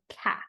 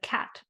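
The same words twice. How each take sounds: First: The final consonant sound is left off. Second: The final consonant sound is clearly pronounced. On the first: "children will drop their final consonant" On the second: "instead of cat"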